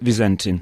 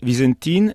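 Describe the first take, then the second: First: The name is pronounced the English way. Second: The name is pronounced the Italian way. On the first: "à l'anglaise c'est Vizentin" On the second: "À l'italienne c'est Vizentin"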